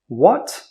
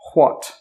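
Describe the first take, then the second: First: The word starts with a plain w sound. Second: The word starts with a breathy hw sound. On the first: This is how most people say it today. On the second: This way is a little old-fashioned.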